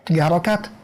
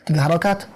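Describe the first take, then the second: Both takes have the same delivery.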